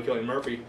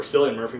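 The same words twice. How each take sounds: First: "Cillian" said KIL-ing, with a hard K at the start. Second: "Cillian" said SIL-yun, with a soft S at the start. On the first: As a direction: open "Cillian" with a hard K, like kill. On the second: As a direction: begin "Cillian" with an S, like silly. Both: Shown as a demonstration. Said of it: "whatever it is".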